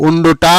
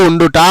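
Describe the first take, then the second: The two takes are said the same way.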